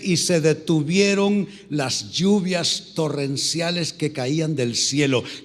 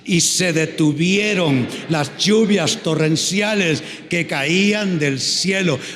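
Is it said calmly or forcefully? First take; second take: calmly; forcefully. First: It is read calmly, without extra force. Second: It is read forcefully, with authority.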